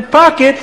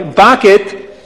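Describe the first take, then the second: First: Said in the usual way. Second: Put-on accented "pocket" with B for P; accent turning pocket into "bocket"; Abdallah's accent. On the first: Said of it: "I'm sorry, bucket". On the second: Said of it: "I'm sorry".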